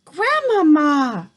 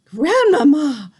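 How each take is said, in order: First: Long, loud, high, slow call; shouted again. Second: Long, loud, high call; shouted. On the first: Boy shouts down to grandmother once more, loud and slow. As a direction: call her name out again. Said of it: "I shouted again". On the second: Boy shouts down to grandmother, long and loud. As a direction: call her name down the tree. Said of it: "I shouted". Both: A narrator's reading.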